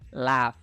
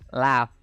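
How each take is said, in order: The two takes are said the same way.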